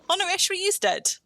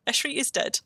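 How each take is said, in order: First: Jumps up high in alarm; a startled cry at the bad news; sudden alarm. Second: Said in the usual way. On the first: Real, not acted. Teammate suddenly dies in game.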